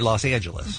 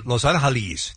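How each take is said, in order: First: The city name is said with American pronunciation. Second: The city name is said with Spanish pronunciation. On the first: "They say Los Angeles because they're in America" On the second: "they don't say Los Angeles"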